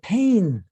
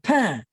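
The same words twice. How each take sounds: First: The final N is clearly pronounced as a consonant. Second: The final N is not pronounced; the vowel is nasal. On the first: This is the southern French way of saying it. "he actually says the N" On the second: This is the Parisian way of saying it. "I pronounced it pain"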